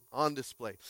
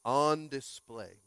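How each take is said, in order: First: Said in the usual way. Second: On display, slow and weighty; title emphasis. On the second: Shown as a demonstration. Pastor repeating the sermon title, slow and deliberate. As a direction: let On display land slowly. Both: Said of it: "today's message is titled On Display".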